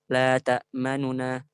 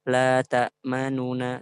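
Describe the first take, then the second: First: The vowel after the first nun is quickly shortened. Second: The vowel after the first nun is given full length. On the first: The speaker calls it right. "Kita cepatkan di nun yang ke, yang pertama itu" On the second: The speaker calls it wrong.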